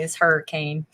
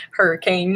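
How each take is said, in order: First: Said in the usual way. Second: Southern accent. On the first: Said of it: "Notice how I start talking about country music". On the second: Shown as a demonstration. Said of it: "the accent comes out".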